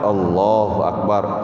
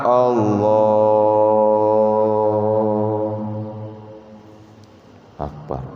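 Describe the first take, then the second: First: The phrase is said quickly. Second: The phrase is slowly drawn out.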